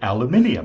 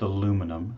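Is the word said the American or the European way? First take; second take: European; American. First: It is said the European way, five syllables. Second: It is said the American way, four syllables.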